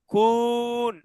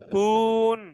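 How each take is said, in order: No difference in how they are said.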